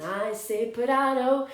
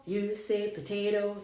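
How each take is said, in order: First: "potato" with an AH in the middle; contrasting pronunciation. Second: "potato" with an AY in the middle; usual pronunciation. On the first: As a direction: say "potato" as puh-TAH-toh. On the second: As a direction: say "potato" as puh-TAY-toh. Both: Shown as a demonstration. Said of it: "know about this song".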